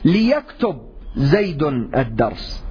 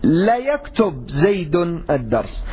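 First: The first syllable has the vowel i. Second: The first syllable has the vowel a. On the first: This is the standard, most eloquent form. The speaker calls it right. "حركة اللام هي الكسر" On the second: The speaker calls it wrong. "قبيلة سليم تفتحها"

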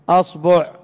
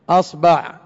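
The two takes are said the same way.

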